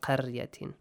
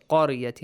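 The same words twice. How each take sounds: First: قرية with thin, light qaf and ra; wrongly light consonants. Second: قرية with dark, heavy qaf and ra. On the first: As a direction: say قرية without any heaviness, as the mistake. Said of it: "not قرية". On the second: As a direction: say قرية with full heavy consonants. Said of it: "pronounce them with a heavy sound". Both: Shown as a demonstration.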